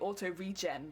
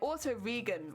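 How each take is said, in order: First: 'Regen' is said as in 'regeneration'. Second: 'Regen' is not said as in 'regeneration'. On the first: The speaker calls it right. "It's meant to be auto regen" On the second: The speaker calls it wrong. "I got it wrong"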